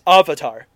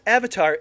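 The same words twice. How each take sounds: First: Avatar is pronounced with altered vowels. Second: Avatar is pronounced the usual English way. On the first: This is how the film pronounces the word. The speaker calls it wrong. "they say avatar wrong" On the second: This is the established pronunciation of the word. The speaker calls it right. "they pronounce avatar as"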